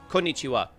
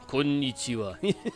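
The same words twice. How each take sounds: First: It is said in a plain American voice. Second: It is said with a Japanese-sounding accent.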